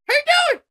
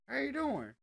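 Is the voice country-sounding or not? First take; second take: not country; country. First: It is said in a non-country voice. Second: It is said in a country-style voice.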